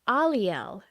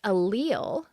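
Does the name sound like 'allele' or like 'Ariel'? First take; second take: like Ariel; like allele. First: The name is said to sound like Ariel. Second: The name is said like the word allele. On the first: The speaker calls it right. "Think of Ariel" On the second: The speaker calls it wrong. "it's not pronounced allele"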